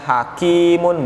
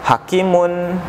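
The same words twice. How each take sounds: First: The vowel in 'ki' is held long. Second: The vowel in 'ki' is said short. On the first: The speaker calls it right. "Jadi dibacanya hakimun" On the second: The speaker calls it wrong. "bukan hakimun, enggak seperti itu"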